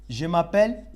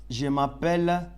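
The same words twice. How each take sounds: Both takes have the same delivery.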